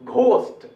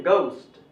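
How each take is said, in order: First: घोस्ट with strong breathy gh, higher; old Hindi-style ghost. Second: घोस्ट as "goust", falling; घोस्ट with unaspirated g; correct English ghost. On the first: Teacher recalls how our people said it, aspirated घोस्ट. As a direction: puff the gh hard in घोस्ट. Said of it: "अपने लोग क्या बोलते थे पहले". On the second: Teacher confirms how to say it, घोस्ट as "goust". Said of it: "ऐसे बोलना चाहिए". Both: Shown as a demonstration.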